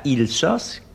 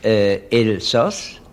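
First: The name begins with an 'i' vowel sound. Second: The name begins with an 'e' vowel sound. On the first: The speaker calls it wrong. "on ne dit pas Ilsass" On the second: The speaker calls it right. "Et Elsass"

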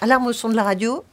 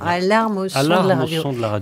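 First: The phrase is said at a faster pace. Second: The phrase is said at a slower pace.

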